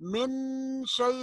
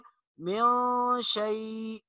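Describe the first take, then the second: First: The n is pronounced fully and clearly. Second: The n is hidden and nasalized. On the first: The speaker calls it wrong. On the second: The speaker calls it right.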